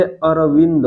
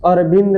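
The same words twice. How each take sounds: First: अरविंद said "aravind", with a clear v and every vowel spoken; correct pronunciation. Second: अरविंद said as "arbind", with b and no middle vowel; the mistaken way, "arbind" run together quickly; wrong pronunciation. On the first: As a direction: say अरविंद carefully as a-ra-vind. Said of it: "अरविंद नहीं होता है, अरविंद होता है". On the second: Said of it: "नहीं होता है". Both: Shown as a demonstration.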